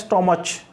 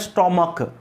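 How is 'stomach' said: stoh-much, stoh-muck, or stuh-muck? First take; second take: stoh-much; stoh-muck. First: It has an 'oh' vowel and ends in 'ch'. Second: It has an 'oh' vowel and ends in 'k'. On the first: "कई लोग इसका pronunciation करते हैं स्टोमच" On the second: "या कई लोग कहते हैं स्टोमक, ना स्टोमक है"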